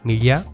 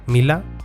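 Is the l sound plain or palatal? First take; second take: palatal; plain. First: The l is a palatal ly sound. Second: The l is a plain l sound. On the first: "se convierte en Illa"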